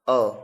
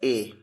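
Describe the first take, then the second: First: The vowel is a short reduced 'uh' sound. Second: The vowel is a full 'ay' sound. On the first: It is the article inside a sentence. "whenever it comes in a sentence, it's pronounced as a" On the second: It names the letter on its own. "whenever you take A as a letter, it's pronounced as A"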